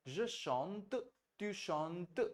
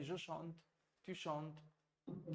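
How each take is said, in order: First: "chante" and "chantes" with a clearly pronounced final t; final t sounded out. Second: "chante" and "chantes" with the final t only lightly touched, said softer; softened final t. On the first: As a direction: exaggerate the t at the end of "chante". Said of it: "इतना बोल के सुना रहा हूँ ताकि आपके कान में सुनाई दे". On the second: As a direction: let the t of "chante" fade away softly. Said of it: "लेकिन धीरे-धीरे इसको सॉफ्ट कर दीजिएगा". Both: Shown as a demonstration.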